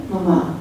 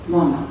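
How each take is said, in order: First: "mama" stressed on the last syllable; accented final syllable. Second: "mama" stressed on the first syllable; no final accent. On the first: Author asks visitors to say it with the accent, "mama" stressed at the end. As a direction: say "mama" as ma-MA, Spanish-style. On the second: Author offers it without the accent, "mama" stressed at the start. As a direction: say "mama" as MA-ma, with a weak ending. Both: Shown as a demonstration. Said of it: "with or without the accent".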